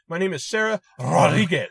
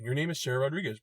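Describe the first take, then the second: First: The name is said with a Spanish accent. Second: The name is said in plain English.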